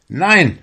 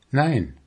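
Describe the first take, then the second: First: High, loud outcry; shouted refusal. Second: Said in the usual way. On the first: A narrator's reading. Fisherman refuses his soul's invitation, loud high shout. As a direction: cry out a sharp no. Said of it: "schrie er". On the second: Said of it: "antwortete die Seele".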